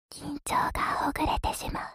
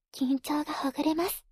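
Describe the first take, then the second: First: Breathy whisper into the ear. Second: Said in the usual way. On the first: Acted. Same phrase earlier voiced.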